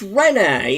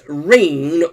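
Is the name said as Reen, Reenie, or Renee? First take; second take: Renee; Reen. First: The name is said the French way, Renee. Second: The name is said as one syllable, Reen. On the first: The speaker calls it right. "but it turns out it's Renee" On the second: The speaker calls it wrong. "I made a faux pas uh, where I was sort of pronouncing Renee as Reen"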